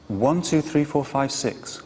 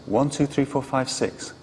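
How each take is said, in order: Both takes have the same delivery.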